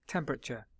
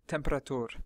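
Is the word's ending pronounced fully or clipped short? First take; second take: fully; clipped. First: The word ends with its full final syllable. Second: The word's final syllable is clipped short. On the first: The speaker calls it right. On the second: The speaker calls it wrong. "not temperatur"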